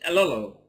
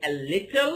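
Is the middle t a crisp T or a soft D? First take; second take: soft D; crisp T. First: The middle t sounds like a soft D. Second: The middle t is a crisp T sound. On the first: The speaker calls it right. "it's a little ... I change it into D technically" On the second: The speaker calls it wrong. "I don't say a little"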